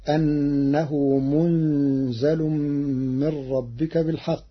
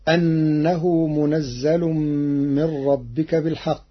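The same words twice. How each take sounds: First: منزل said munzal, n without a vowel, z single; slow munzal with light z; Warsh reading. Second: منزل said munazzal with doubled z; slow recitation stressing munazzal; Hafs reading. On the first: Teacher recites Warsh's reading of منزل. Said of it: "بسكون النون وتخفيف الزاي". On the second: Teacher recites the verse before giving Warsh's reading. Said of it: "قرأ ورش كلمة منزل". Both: Shown as a demonstration.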